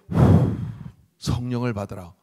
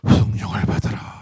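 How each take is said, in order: First: A breath is blown out before the words. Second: It is said plainly without a breath out.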